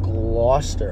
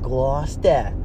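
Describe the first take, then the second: First: The name ends with an 'er' sound. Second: The name ends with an 'ah' sound.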